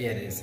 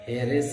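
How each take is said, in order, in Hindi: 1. शब्द की शुरुआत स्वर ध्वनि से होती है। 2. शब्द की शुरुआत h ध्वनि से होती है। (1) "एरिस है तभी एन की यूज हुआ है" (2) "हेरिस नहीं पढ़ेंगे इसे ना"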